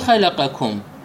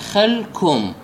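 First: The q sound is kept before the k. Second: The q sound is merged into the following k. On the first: The original meaning is kept. "مو خلقكم" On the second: The meaning of the word changes. "لو أدغمنا القاف بالكاف، هذا فماذا راح تقرأ؟ تقرأ خلكم"

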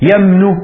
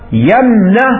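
First: The n is followed by a 'u' vowel. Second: The n is followed by an 'a' vowel. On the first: "وواحدة بضم النون" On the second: "واحدة بفتح النون"

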